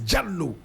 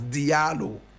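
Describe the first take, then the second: First: The name starts with a 'j' sound. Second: The name starts with a 'dee' sound. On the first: This is the original Fulani form. The speaker calls it right. "Correct pronunciation is Jallo" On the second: This is how many people say it. The speaker calls it wrong. "many people will pronounce it as Diallo"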